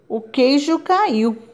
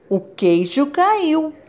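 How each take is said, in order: First: It is said in a serious, flat tone. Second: It is said in an amazed, astonished tone.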